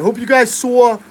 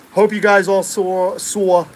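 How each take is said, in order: First: Said in the usual way. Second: Slow, drawn-out New York accent. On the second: Shown as a demonstration. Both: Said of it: "there's my New York accent".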